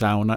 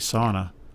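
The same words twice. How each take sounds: First: It is said with the Finnish pronunciation. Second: It is said with the North American pronunciation. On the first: "it's pronounced sauna in Finland" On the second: "It's probably because of the spelling that people just say sauna"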